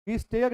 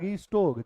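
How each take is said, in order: First: The second syllable sounds like 'stair'. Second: The second syllable sounds like 'store'. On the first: The speaker calls it wrong. "रीस्टेयर नहीं बेटा" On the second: The speaker calls it right.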